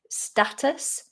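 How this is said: It is said in an American English accent. "in American English, I think this is more status"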